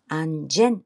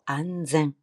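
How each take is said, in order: First: The word is said the Korean way, anjeon. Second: The word is said the Japanese way, anzen. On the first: The speaker calls it wrong. "안전 말고" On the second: The speaker calls it right. "제 발음 조심하시고요"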